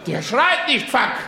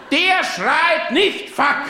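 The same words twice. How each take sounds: First: Said in the usual way. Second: Slow, emphatic, "nicht" hit hard and drawn out; stress on nicht. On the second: Shown as a demonstration. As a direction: lean on "nicht" and slow right down. (betont langsam, Nachdruck auf "nicht") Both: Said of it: "repeated for emphasis".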